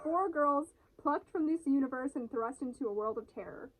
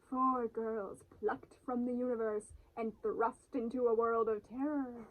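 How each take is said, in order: First: It is said at normal speed. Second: It is said slowly.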